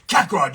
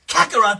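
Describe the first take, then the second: First: The character voice is pitched lower. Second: The character voice is pitched very high. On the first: The character sounds older. "decided to pull him down more" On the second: The character sounds younger. "He was way up in here"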